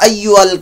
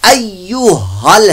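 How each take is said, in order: First: It is said without an h sound. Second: It is said with a clear h sound. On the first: The speaker calls it wrong. "अय्यु अल नहीं है" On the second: The speaker calls it right. "अय्यु हल है, हा की बात"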